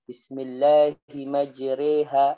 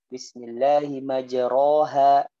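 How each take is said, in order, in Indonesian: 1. Vokal setelah r condong ke e. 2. Vokal setelah r biasa dan terbuka. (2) "dia bacanya"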